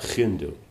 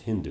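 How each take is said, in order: First: The first sound is a harsh, throaty guttural. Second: The first sound is a soft, light h. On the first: This is how speakers of those languages said it. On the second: This is how other people later said it. "other people don't use that guttural sound, so then they'll soften it"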